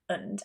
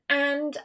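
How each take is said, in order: First: It has a schwa and no final d. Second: It has a full vowel and a final d. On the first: "I also chopped off the D because it was easier to connect" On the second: "rather than and"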